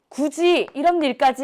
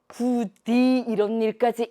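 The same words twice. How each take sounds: First: The consonant in 굳이 sounds like j. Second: The consonant in 굳이 sounds like d.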